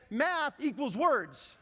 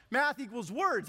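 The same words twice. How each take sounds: First: Slow deliberate self-talk; slow mantra. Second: Said in the usual way. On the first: Shown as a demonstration. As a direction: spell it out slowly like a mantra. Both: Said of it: "What I did was I said".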